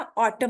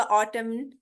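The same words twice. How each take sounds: First: ऑटम ending cleanly on m; silent n. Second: ऑटम with an n after the m; wrong pronunciation. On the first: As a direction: end ऑटम with no n. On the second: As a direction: sound a final n in ऑटम. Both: Shown as a demonstration. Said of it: "ये एन silent होगा".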